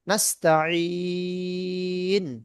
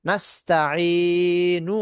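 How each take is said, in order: First: The word ends on a consonant sound. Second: The word ends with a final vowel. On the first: The reader stops on this word. "থামতে গেলে হবে" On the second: The word is read without stopping. "আছে"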